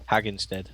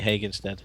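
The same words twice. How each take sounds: First: "Hagenstead" with a short A, as in hag; second pronunciation attempt. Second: "Hagenstead" with a long A, as in hay; unsure pronunciation. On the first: Retrying the name for viewers, "Hagenstead" said as HAG-en-sted. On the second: Challenging viewers to beat the name, "Hagenstead" said as HAY-gen-sted. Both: Real, not acted. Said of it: "I've forgotten how to pronounce it".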